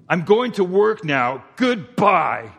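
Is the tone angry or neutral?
angry. It is said in an angry, curt tone. The speaker is upset with the listener. "the tone could be different"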